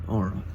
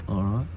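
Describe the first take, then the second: Both takes have the same delivery.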